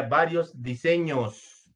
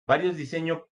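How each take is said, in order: First: DISEÑOS with a clear, held final S; corrected plural. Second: DISEÑO left singular, with no final S; error without plural S. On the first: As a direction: sound the plural S at the end of "diseños". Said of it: "Tenemos un plural y tenemos un singular". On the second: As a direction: read "diseño" as written, ending on the O. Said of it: "¿cuál es su error, chicos?". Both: Shown as a demonstration.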